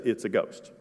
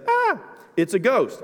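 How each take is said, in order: First: Said in the usual way. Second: High, slow fearful "Ah, it's a ghost"; terrified cry. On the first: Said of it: "It just says". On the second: Acted. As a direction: cry out like you've seen a ghost. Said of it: "I added the "ah".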